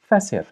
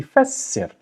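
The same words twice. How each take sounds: First: Said in the usual way. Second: "fassir" with a long held s; doubled s. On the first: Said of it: "So you know this is fasir". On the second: Shown as a demonstration. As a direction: linger on the s in "fassir". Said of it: "It should be fassir".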